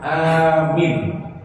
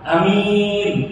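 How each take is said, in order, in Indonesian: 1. Vokal pertama panjang, yang kedua pendek. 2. Vokal pertama pendek, yang kedua panjang. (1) "A-nya panjang, min-nya pendek" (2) "A-nya pendek, min-nya panjang"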